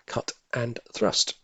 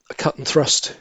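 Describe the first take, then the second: First: A slow private whisper of "cut and thrust"; whispered to himself. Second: Said in the usual way. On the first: Real, not acted. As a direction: whisper "cut and thrust" slowly under the breath. Repeating the answer to himself.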